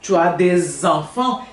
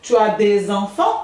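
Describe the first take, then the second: First: "des enfants" linked with a z sound, "dez-enfants"; liaison z. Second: "des enfants" linked with a z sound; liaison z. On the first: Teacher demonstrates the liaison in "des enfants" with a z. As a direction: join "des enfants" with a clear z. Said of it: "eu uso o som do S e do E pra fazer um Z". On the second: Teacher repeats the linked "des enfants" for students. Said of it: "tem liaison". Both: Shown as a demonstration.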